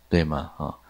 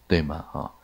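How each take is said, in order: Both takes have the same delivery.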